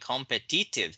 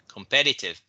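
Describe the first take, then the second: First: The stress is on the last syllable. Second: The stress is on the second syllable. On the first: The speaker calls it wrong. "what you said the first time during your reading" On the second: The speaker calls it right. "the stress is on the second syllable"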